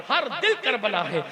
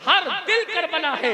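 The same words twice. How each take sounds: First: Said in the usual way. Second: Louder, fervent declaration; emphatic repeat. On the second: Real, not acted. Preacher declaring every heart Karbala, forceful and fervent. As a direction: drive the refrain home with force.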